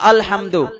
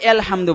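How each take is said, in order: First: The first vowel is an open 'a' sound. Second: The first vowel is an 'e' sound. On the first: The speaker calls it right. "এতে আ হয়" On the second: The speaker calls it wrong. "যারা কোরআন পড়তেই জানে না বলবে এলহামদু"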